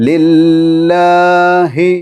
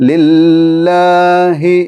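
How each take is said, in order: The two takes are said the same way.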